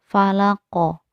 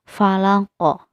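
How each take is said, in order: The two takes are said the same way.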